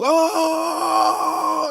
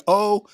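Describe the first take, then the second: First: "Oh" held very long on a high pitch; drawn-out crowd "oh". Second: Said in the usual way. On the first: Shown as a demonstration. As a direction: stretch "Oh" out like a whole crowd hollering. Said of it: "I'm talking ten seconds long". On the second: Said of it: "when I say they saying".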